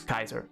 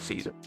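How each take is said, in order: First: The word begins with a hard K sound. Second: The word begins with a soft S sound. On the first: This is likely the original ancient pronunciation. "actually pronounced as Kaiser. the C probably makes a k noise" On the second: This is the everyday modern pronunciation. "I'm still gonna call it Caesar"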